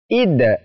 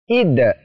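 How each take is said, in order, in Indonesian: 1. Bunyi d akhir dilepas dengan pantulan. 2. Bunyi d akhir dilepas dengan pantulan.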